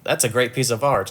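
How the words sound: The R in art is clearly pronounced. This is the intended American delivery. "when she had to deliver a hard R sometimes. Like it would come out as not like"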